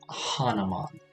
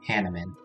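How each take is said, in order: First: The name is said as Hanuman. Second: The name is said as Hanneman. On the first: This is how it looks when read. The speaker calls it wrong. "I just see that and I think it's like Hanuman" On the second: This is how the game says it. The speaker calls it right. "It is supposed to be pronounced Hanneman"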